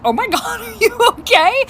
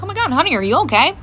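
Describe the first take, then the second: First: High-pitched question broken by laughter; burst out laughing. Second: Mildly worried mom, retold; a little concerned. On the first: Retold or imitated. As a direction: imitate cracking up while asking. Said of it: "I burst out laughing". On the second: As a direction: gently check on your child. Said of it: "I was a little concerned".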